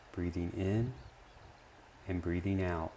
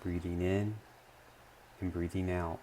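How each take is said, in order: Both takes have the same delivery.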